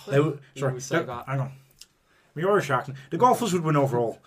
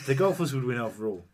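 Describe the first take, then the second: First: It is spoken in a put-on Irish accent. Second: It is spoken in the speaker's plain accent. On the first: "Why my Irish accent's all right?" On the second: "can you do it without the accent"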